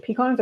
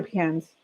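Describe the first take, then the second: First: Pecans with a broad "ah", pee-KAHNS; pecans, one variant. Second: Pecans with a short flat "a" as in cans, pee-CANS; pecans, other variant. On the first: Streamer asking viewers which way they say it, pecans as pee-KAHNS. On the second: Streamer offering the other option, pecans as pee-CANS. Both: Shown as a demonstration. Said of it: "How do you guys say pecans?".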